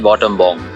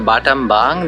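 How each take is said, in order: First: The vowels are rounded O sounds. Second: The vowels are open A sounds. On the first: "they say bottom bong" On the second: "similarly for batam bang"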